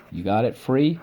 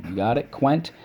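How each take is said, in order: First: "free" said apart as the first syllable; "free" spoken on its own. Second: "quent" said apart as the second syllable; "quent" spoken on its own. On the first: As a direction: isolate "free". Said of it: "First syllable". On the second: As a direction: isolate "quent". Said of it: "Second syllable". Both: Shown as a demonstration.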